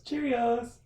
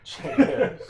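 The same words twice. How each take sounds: First: Cheerios said high, mock British; British pronunciation. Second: Cheerios squeaked high through laughter; laughing echo. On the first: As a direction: sing out Cheerios like a Brit. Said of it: "Go get some Cheerios". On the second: Retold or imitated.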